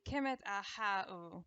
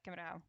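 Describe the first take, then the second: First: "Kemet a ha u" drawn out slowly; slow, full pronunciation. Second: "Kemet a how" squeezed short and quick; crammed-down pronunciation. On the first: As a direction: give each syllable of "Kemet a ha u" its time. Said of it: "supposed to take a few seconds to say". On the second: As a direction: cram "Kemet a how" into a quieter, quick mumble. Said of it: "we just cram it down". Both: Shown as a demonstration.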